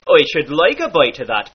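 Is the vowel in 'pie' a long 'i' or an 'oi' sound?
oi. Pie and bite have an oi vowel.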